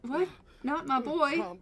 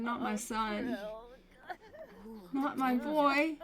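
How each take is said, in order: First: Higher, louder, baffled echo; mock confused father. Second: Higher, drawn-out wail; mock grieving mother. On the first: Father baffled by the mother's grief, mock bewildered echo. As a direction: repeat it back in disbelief. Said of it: "Edward's up here like". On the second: Mother mourning her son, mock wailing. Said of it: "She's like".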